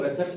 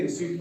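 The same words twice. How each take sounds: First: "रिसेप्ट" with the P sounded; wrong pronunciation. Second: "रिसीट" with long ee and no P; silent P. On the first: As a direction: say "रिसेप्ट" as re-sept. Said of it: "नहीं पढ़ते हैं". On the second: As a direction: say "रिसीट" as ri-seet. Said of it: "बल्कि रिसीट पढ़ते हैं". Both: Shown as a demonstration.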